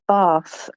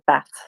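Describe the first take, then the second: First: It has a long Southern English vowel. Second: It has a short Northern English vowel.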